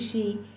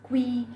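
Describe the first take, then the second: First: The word begins with a ch sound. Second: The word begins with a k sound. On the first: The speaker calls it right. "but it's actually she" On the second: The speaker calls it wrong. "A lot of people also pronounce it as qui"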